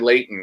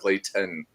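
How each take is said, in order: First: The middle T is dropped, Utah style. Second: The middle T is clearly pronounced.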